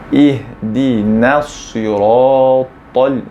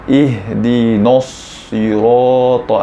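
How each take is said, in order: First: The syllable after the 'd' is said 'na'. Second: The syllable after the 'd' is said 'no'. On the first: The speaker calls it right. "sepatutnya kita baca macam itu" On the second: The speaker calls it wrong. "baca no salah"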